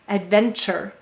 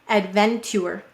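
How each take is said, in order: First: It is said quickly with a ch sound. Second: It is said quickly with a ch sound.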